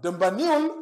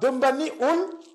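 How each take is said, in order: First: The phrase is said quickly. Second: The phrase is said slowly. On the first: The missing sound goes unnoticed. "en disant rapidement" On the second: The missing sound is easy to notice. "si on va lentement en disant"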